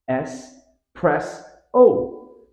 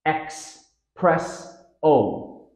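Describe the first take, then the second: First: S, press, O as three spaced beats; syllable-by-syllable. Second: X, press, O as three spaced beats; common error. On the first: Teacher showing espresso's stress pattern, syllable by syllable. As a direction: step up louder and higher from S through press to O. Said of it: "stress pattern". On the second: Teacher demonstrating the common error, X sound added. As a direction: open on a hard X sound, then press, O. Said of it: "Common error". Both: Shown as a demonstration.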